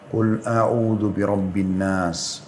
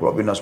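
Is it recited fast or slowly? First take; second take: slowly; fast. First: It is recited slowly and carefully. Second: It is recited fast and rushed.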